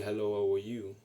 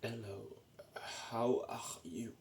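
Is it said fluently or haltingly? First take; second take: fluently; haltingly. First: It is said smoothly and naturally. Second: It is said slowly and with effort.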